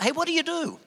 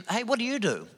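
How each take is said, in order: First: "Hey, what do you do?" pitched much higher with a big lift on "you"; exaggerated blokey small talk. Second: Casual matey "Hey, what do you do?" pitched higher; blokey small talk. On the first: Man mimicking the typical male opener, hammed-up high query. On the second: Retold or imitated. Man asking a stranger on a plane, casual blokey question. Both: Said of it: "a man thing that men do".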